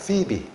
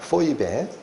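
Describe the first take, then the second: First: The name is said as two syllables, pi-bi. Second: The name is said as three syllables, po-i-be. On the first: "미국식 발음은 피비입니다" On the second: "헬라어로 그대로 발음하면 포이베라고 발음된다"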